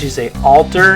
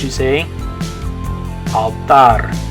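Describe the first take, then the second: First: It is said with English vowel sounds. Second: It is said with Spanish vowel sounds. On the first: "In English" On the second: "In Spanish"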